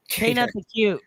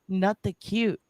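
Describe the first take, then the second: First: The name begins with a clear K sound. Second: The name begins with an N sound, no K. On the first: "or is it K Nut the cute?" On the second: "Nut with a silent K"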